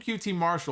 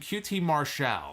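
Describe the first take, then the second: First: The name is said the plain, familiar way. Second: The name is said a new, fancier way. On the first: This is how the name was always said. The speaker calls it right. "I'm calling him Q T Marshall" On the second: Others have recently changed how the name is said. The speaker calls it wrong. "they're calling him Q T Marshall"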